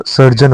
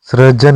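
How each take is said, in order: First: सर्जन said sar-jan; correct form. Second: सृजन said sri-jan; wrong form. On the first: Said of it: "सर्जन होता है". (सर्जन, सही रूप, सर् के साथ) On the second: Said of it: "सृजन नहीं होता". (सृजन, गलत रूप, ऋ के साथ) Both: Shown as a demonstration.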